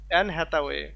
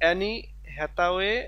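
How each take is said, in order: First: The first name is said with one syllable. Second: The first name is said with two syllables. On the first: The speaker calls it right. "Just অ্যান Hathaway" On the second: The speaker calls it wrong. "এখানে অ্যানিও যে উচ্চারণ হবে তা না"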